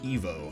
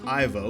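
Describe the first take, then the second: First: The name is said with its original French pronunciation. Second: The name is said with an English pronunciation. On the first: "the original being Evo" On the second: "the English pronunciation is Ivo"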